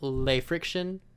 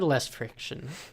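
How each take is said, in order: First: The first word is said like French 'lay'. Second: The first word is said like English 'less'.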